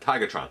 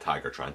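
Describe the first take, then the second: First: The middle syllable sounds like 'ga'. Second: The middle syllable sounds like 'ger'. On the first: The speaker calls it right. "Tigatron, not Tigertron" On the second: The speaker calls it wrong. "not Tigertron"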